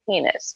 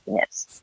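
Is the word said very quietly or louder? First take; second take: louder; very quietly. First: It is said a bit louder. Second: It is said very quietly.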